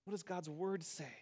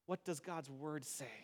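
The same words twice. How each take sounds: First: Softer, stress moved to does; quiet repeated question. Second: Soft and low, humbly asking; hushed, humble asking; humble quiet question. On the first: Preacher repeats the humble question quietly. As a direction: gently ask it again, leaning on does. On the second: Preacher shows how to ask humbly, softly. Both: Shown as a demonstration. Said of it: "humbly ask".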